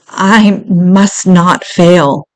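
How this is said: It sounds resigned and a bit afraid. The speaker fears what happens if she fails. The speaker calls it right. "It's more of, ... She sounds resigned and a bit afraid"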